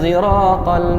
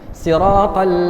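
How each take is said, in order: First: The first consonant sounds partly like a z. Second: The first consonant sounds like an emphatic s. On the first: "ismam as-sad zayan, ya, berbunyi zai" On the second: "saya mulakan dengan sad"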